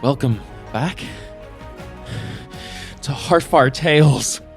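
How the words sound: It is said in a dramatic, panicked horror style.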